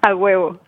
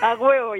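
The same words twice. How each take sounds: First: It is said calmly and plainly. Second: It is said loudly with gusto.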